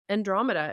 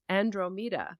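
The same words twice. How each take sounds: First: The name is said the common English way. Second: The name is said the Greek way. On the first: This is not the name that was heard. "it wasn't Andromeda" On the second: This is the name that was heard. "the Greek pronunciation of Andromeda is Andromeda"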